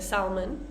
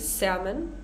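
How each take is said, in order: First: An L sound is pronounced. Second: No L sound is pronounced. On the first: "although many native speakers say salmon" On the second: "it's supposed to be salmon"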